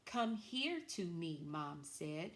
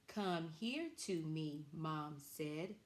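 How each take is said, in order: First: "Come here to me" read slowly and higher, word by word; slow, higher model reading. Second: "Come here to me" read slowly at normal pitch; slow reading, usual pitch. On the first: Teacher reading the class sentence slowly and higher. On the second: Teacher rereading the class sentence slowly at normal pitch. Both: Shown as a demonstration. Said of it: "our sentence that we're going to use today is this".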